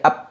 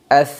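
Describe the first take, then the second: First: The sound stops with both lips closed. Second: The breath flows out with the lips open. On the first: The speaker calls it wrong. "dengan menutup kedua bibir" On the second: The speaker calls it right. "nafas udara atau anginnya mengalir"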